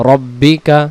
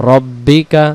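The two takes are said the same way.

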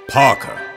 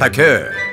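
First: It is said in an English accent. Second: It is said in a French accent. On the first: "as the English would say it" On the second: "as the French would say it"

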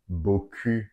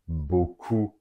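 First: The second vowel is a front rounded u. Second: The second vowel is a back ou sound. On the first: It refers to a nice backside. The speaker calls it wrong. "Usually pronounced as beaucoup by many of my students, which I found very funny because it means nice ass" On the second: It means a lot. The speaker calls it right. "So it's important to well pronounce that word"

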